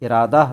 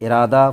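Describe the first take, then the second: The two takes are said the same way.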